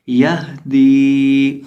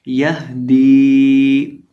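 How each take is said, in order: First: यह दी with the हा breathed from the throat; slow careful recitation. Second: यह दी again, हा from the back of the throat, drawn out; slow careful recitation. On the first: Teacher recites यह दी for students to copy. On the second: Teacher repeats यह दी slowly. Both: Shown as a demonstration. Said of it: "इसकी आवाज़ आनी चाहिए यह दी".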